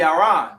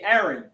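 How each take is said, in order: First: The name is said the Yiddish way. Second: The name is said the English way. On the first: "if you really want to say it in the Yiddish" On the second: "because of the English language, we say Aaron"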